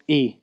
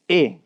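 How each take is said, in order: First: E said as English "ee"; English letter name. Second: E said as "eh"; Japanese vowel. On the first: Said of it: "is not E". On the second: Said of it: "it is E". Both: Shown as a demonstration.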